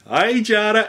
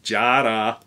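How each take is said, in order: First: Australian accent. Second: Said in the usual way. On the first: Shown as a demonstration. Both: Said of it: "that's my Australian accent".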